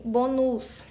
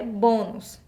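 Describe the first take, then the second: First: "bonus" with the stress pushed onto the final -nus; wrongly stressed bonus. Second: "bônus" stressed on the closed first syllable bô; correct pronunciation of bônus. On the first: Teacher reads the misaccented word to students, "bonus" stressed on its last syllable. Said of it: "a nossa palavra bonus tá errada". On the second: Teacher reminds students of the correct word, "bônus" stressed on bô. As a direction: say "bônus" as BÔ-nus. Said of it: "vamos lembrar que a palavra é bônus". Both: Shown as a demonstration.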